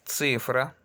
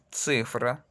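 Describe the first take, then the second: No difference in how they are said.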